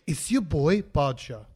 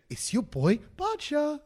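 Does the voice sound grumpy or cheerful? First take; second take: grumpy; cheerful. First: It is said in a grumpy, flat mood. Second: It is said in a brighter, cheerful mood.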